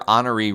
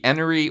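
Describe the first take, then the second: First: The name begins with an 'oh' sound. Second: The name begins with an 'eh' sound. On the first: It is the local pronunciation. The speaker calls it wrong. "I have heard a lot of locals pronounce it that way" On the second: It follows the spelling. The speaker calls it right. "It's it's spelled E N O R E E"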